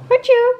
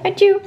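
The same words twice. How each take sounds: First: Very high, louder playful sneeze; an even sillier sneeze for the baby; squeaky mock sneeze. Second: High playful fake sneeze; mock sneeze. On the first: (piepend speels niesje) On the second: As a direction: sneeze it out cutely for the baby. (speels nep-niesje) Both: Nagedaan niesje voor baby.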